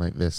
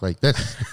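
First: The voice is flat and monotone. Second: The voice is lively and varied in pitch. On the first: The speaker calls it wrong. "You stop talking like this" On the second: The speaker calls it right. "and talk like this"

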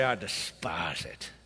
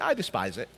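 First: It is said forcefully through gritted teeth. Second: It is said lightly, without force. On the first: The speaker strongly detests the thing. The speaker calls it right. "you just got to almost grit your teeth" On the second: The word loses its power and meaning. The speaker calls it wrong. "You just don't say"

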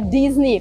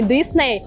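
First: It is said the American way, with a z sound. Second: It is said the Russian way, with an s sound. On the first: The speaker calls it right. "в Америке правильно говорить ... а Дизни" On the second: The speaker calls it wrong. "правильно говорить не Дисней"

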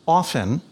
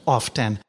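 First: The T in the word is silent. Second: The T in the word is pronounced. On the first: This was the generally accepted pronunciation. "it was generally accepted that it was pronounced often" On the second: This is an overcorrection by newly literate readers. "would overcompensatorily pronounce the T"

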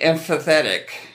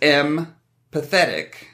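First: The word does not sound like 'M pathetic'. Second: The word sounds like 'M pathetic'. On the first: The speaker calls it wrong. "I always want to say empathetic" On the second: The speaker calls it right. "I should just think of it as empathetic, because M is a letter"

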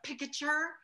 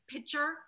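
First: The k sound before the t is pronounced. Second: The k sound before the t is dropped. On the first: This is the careful way of saying it. The speaker calls it right. "instead of picature" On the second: This is the Chicago way of saying it. The speaker calls it wrong. "we say pitcher"

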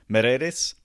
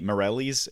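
First: The name is said with a native-style accent. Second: The name is said with an American accent. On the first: "I do know how to pronounce his name" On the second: "if you're, you know, a dumb American"

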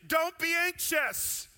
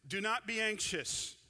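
First: It is said with a sense of urgency. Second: It is said calmly, without urgency.

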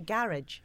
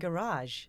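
First: It is said with a British pronunciation. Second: It is said with an American pronunciation. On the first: This is how the speaker's own country says it. "We say garage" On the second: The speaker has picked up the local usage. "I've been seeing Garage. Which is weird for me"

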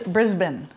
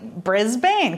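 First: It is said the Australian way. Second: It is said the American way. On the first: The speaker calls it right. "How they say it" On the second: The speaker calls it wrong. "for us Americans, it looks like Brisbane"

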